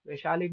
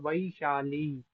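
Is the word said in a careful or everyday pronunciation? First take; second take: everyday; careful. First: It is said with the everyday colloquial pronunciation. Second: It is said with the careful Sanskrit pronunciation. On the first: The speaker calls it wrong. "वैशाली नहीं होता" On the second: The speaker calls it right. "ये होता है उसका उच्चारण"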